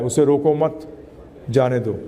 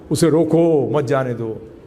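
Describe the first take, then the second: First: उसे रोको मत together, pause, then lower जाने दो; comma after मत. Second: उसे रोको drawn out, then मत जाने दो as one group; comma after रोको. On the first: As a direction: bind मत to रोको, then break. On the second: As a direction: break after रोको, lower pitch. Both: Shown as a demonstration. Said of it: "comma इधर उधर लगा दिया".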